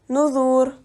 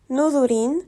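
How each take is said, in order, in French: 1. Le mot se termine par une consonne, sans terminaison. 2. Le mot se termine par un son in ajouté. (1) "on lit nozur" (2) "Au lieu de lire nozorin"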